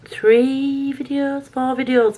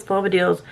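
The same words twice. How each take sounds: First: Excited. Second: Said in the usual way. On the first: Real, not acted. Proud of filming count.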